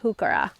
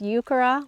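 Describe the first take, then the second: First: The word starts with an H sound. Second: The word starts without an H sound. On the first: "I pronounce it heuchera" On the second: "with the H silent"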